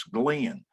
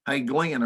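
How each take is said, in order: First: "Glenn" drawn out into two syllables, Glenn-un; "Glenn" stretched as Gle-en. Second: "Glenn" drawn out into two syllables inside a friendly hail; "Hey, Glenn" with Glenn stretched as Gle-en. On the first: Shown as a demonstration. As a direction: say "Glenn" the Texas way, gliding into two beats. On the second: Retold or imitated. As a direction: hail him with a Texas two-beat "Glenn". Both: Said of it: "Glenn is a two-syllable name here in Texas".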